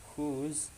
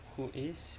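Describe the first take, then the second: First: It is said as one contracted word. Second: It is said as two full words.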